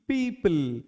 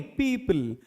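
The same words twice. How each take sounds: First: पीपल said as a flat, wrong "peepal"; पीपल as the wrong example; wrong pronunciation demo. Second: पीपल said as "peepəl" with a clear schwa; पीपल as the corrected form; corrected pronunciation. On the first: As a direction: give the wrong version of पीपल, softly. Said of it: "पीपल नहीं". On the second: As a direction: give the right version of पीपल. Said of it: "पीपल नहीं, पीपल". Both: Shown as a demonstration.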